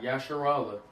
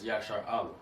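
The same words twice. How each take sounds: First: Yasharallah as one blended word; mispronounced Yasharallah. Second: "Yashar Allah" as two separate words; correct Yashar Allah. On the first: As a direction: say "Yasharallah" joined, ya-sha-RAL-la, without a break. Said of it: "It's not Yasharallah". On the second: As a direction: say "Yashar Allah" with SHAR complete, then a fresh "Allah". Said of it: "it's Yashar Allah". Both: Shown as a demonstration.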